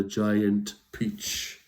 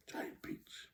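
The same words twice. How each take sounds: First: Said in the usual way. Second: Soft whispered echo. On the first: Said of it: "repeated in a whisper". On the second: Shown as a demonstration. Repeating the book title to children, whisper. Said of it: "whispered echo".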